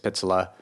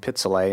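First: The name ends with an 'ah' sound. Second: The name ends with an 'ay' sound. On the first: The speaker calls it right. "It's [name]" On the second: The speaker calls it wrong. "I keep mispronouncing one of the songs. I keep saying Pizzolay"

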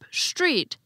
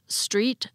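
First: It begins with an sh sound. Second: It begins with a plain s sound. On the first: "as if they actually began with an SH" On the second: "Instead of"

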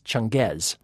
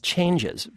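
First: It does not sound like the English word 'changes'. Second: It sounds just like the English word 'changes'. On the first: The speaker calls it right. "in fact it's not. It's Changez" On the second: The speaker calls it wrong. "keeps pronouncing as changes"

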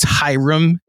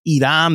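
First: The name begins with an H sound. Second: The name begins with a vowel, no H. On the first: The speaker calls it right. "it's Hiram" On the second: The speaker calls it wrong. "They dropped the H"

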